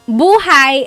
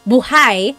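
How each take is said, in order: First: The stress is on the first syllable. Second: The stress is on the second syllable. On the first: It means life. "buhay is life" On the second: It means alive. "the emphasis is on the second syllable"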